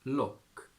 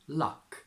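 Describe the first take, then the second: First: It is said with a Geordie 'oh' vowel. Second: It is said with an RP 'ah' vowel. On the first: "to Geordie" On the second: "from R P"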